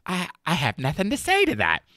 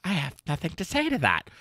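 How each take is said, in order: First: High, snooty "I have nothing to say to that"; a higher, snippier take on the line; snippy dismissive retort. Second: Snooty retort. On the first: Pretend. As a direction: brush it off like a snooty socialite. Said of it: "That's my response here to that quote". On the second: Retold or imitated. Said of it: "she just looks at him and she says".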